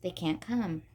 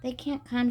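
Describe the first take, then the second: First: Grimly. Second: Said in the usual way. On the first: A narrator's reading. Jill repeating the bad news to Ricky, grimly. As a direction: let the words drop flat and grim. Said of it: "she repeated grimly". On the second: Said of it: "she started".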